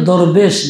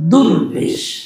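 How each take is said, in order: First: The first vowel is an open 'o' sound. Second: The first vowel is a 'u' sound. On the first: A beggar who goes from door to door. The speaker calls it wrong. "এখন ভুলটাই প্রচলন হয়ে গেছে" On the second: A devout person close to God. The speaker calls it right. "যারা আল্লাহ ওয়ালা তাদেরকে বলা দুর্বেশ"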